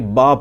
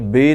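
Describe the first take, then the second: First: The letter name ends in an 'ah' vowel. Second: The letter name ends in an 'ay' vowel. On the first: This is the Arabic way of saying the letter. The speaker calls it right. "बल्कि बा पढ़ा जाएगा" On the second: This is the Urdu way of saying the letter. The speaker calls it wrong. "बे नहीं पढ़ा जाएगा"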